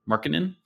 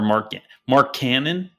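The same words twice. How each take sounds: First: The middle does not sound like 'cannon'. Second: The middle sounds like the word 'cannon'.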